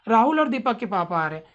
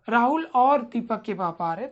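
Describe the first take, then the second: First: The sentence flows without a pause after the first name. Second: There is a slight pause after the first name. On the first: "ये तो एक sense हो गया।" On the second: "तो वहां पे हल्का सा आप रुकते हो।"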